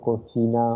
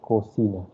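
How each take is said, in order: First: The middle consonant is a 'ch' sound. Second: The middle consonant is an 's' sound. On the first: The speaker calls it wrong. "Don't say cochina or any other way" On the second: The speaker calls it right. "It is cocina. Sir sound is there"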